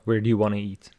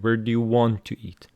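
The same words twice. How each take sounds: First: The words 'want to' are reduced together. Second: The words 'want to' are pronounced fully. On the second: "This time without reduction"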